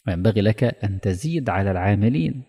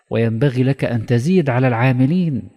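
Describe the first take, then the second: First: Said in the usual way. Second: تزيد stressed, loud and high; raised recitation stressing تزيد; emphatic. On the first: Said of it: "repeated phrase, first take". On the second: Shown as a demonstration. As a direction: push تزيد hard and declaim the line. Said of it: "repeated phrase, second take".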